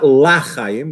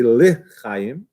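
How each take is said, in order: First: The first syllable is said as 'la'. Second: The first syllable is said as 'le'. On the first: It can sound like not life. The speaker calls it wrong. "not lachayim, which is another way to pronounce it" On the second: It means to life. The speaker calls it right. "to say lechayim, to life"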